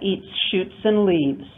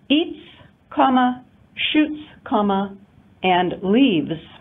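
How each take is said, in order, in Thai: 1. พูดลื่นไหลต่อเนื่อง ไม่มีการหยุดพัก 2. ถูกแบ่งเป็นสามส่วนด้วยการหยุดพัก (1) "If we express that in an intonation unit we have one intonation unit" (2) "here we have three different intonation units separated by pauses"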